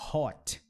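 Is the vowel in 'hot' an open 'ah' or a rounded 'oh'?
rounded oh. The vowel is a rounded 'oh' sound. This is the accent of northern England or Scotland. "ele tinha muito esse sotaque"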